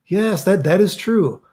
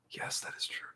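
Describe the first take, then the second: First: High, emphatic "yes, that is true"; excited confirmation. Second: Barely audible whisper; hushed confession. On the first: Streamer confirming a viewer's rumor, excitedly. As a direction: confirm it with animated surprise. Confirms the story, then repeats hushed. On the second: Streamer admitting the rumor to himself, whispered. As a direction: whisper it under the breath. Repeats the confirmation under his breath. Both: Real, not acted.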